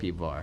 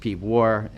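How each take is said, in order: First: The second word starts with a v sound. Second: The second word starts with a w sound.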